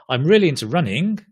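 The voice rises at the end. The speaker calls it wrong. "not I'm really into running"

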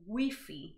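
The word is said with a Spanish pronunciation. "here in Spain, this word is pronounced as Wi-Fi"

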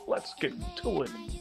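It is said in a put-on impersonation voice.

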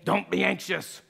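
It is said in a stern, scolding tone. The speaker calls it wrong. "this isn't a"

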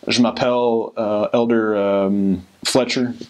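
It is spoken with a heavy American accent. The speaker calls it wrong. "they might sound something like this"

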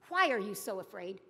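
It is said as a sharp rebuke.

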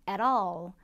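It is said in a North American accent. "원어민들은 이 부분을 at all, at all 이렇게 발음을 합니다. 북미권 발음의 특성"

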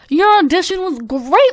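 It is said in a put-on character voice.

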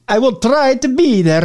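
It is said in an Italian accent.

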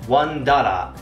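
It is spoken with a Japanese accent. "pronounced one dollar in Japanese"

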